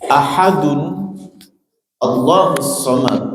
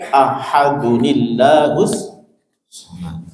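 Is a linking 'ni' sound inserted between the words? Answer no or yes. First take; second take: no; yes. First: The words are said without a linking nun sound. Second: A linking 'ni' sound joins the two words.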